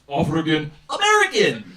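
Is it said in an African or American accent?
African. It is said in a put-on African accent. The speaker calls it right. "It's actually pronounced"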